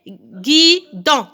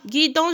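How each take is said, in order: First: "guidon" very slow, in two beats; syllable by syllable. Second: Said in the usual way. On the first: Shown as a demonstration. Teacher splitting word for pupils, slow separate syllables. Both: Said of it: "Alors, deux syllabes".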